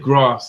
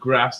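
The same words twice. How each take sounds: First: The word is said with a southern English accent. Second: The word is said with a northern English accent. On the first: "I'd say" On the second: "instead of"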